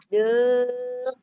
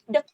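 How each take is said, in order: First: The consonant is held for a longer time. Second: The consonant is pressed briefly without lengthening. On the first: "Tapi kalau menahan dek gitu" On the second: "Kalau menekan cukup di dek gitu"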